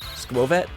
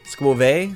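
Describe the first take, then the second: First: The final T is sounded. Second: The final T is silent. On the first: The speaker calls it right. "So, you do pronounce the T" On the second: The speaker calls it wrong. "Supposed to sound like fancy, like buffet?"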